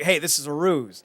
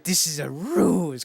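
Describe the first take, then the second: First: Said in the usual way. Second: Slow, badly faked German accent. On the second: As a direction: attempt a German accent, stretching "ruse". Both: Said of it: "I can't do a German accent".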